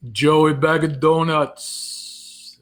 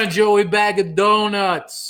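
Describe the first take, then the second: First: Very slow, stretched Jersey Italian; Italian-American Jersey voice, leisurely; Jersey Italian accent. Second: High, loud, drawn-out Italian accent; belted-out Italian-American voice. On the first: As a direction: drag it out in a New Jersey accent. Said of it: "That sounded more like Jersey than New York". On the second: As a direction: ham up an Italian-American accent, big and slow. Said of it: "So many ways you can do the Italian voice". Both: Shown as a demonstration.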